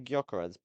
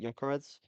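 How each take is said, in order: First: The first G sound is pronounced. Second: The first G sound is silent. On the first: This is the speaker's own way of saying it. "I say Gyökeres" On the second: This is how many other people say it. "a lot of people obviously say it Gyökeres"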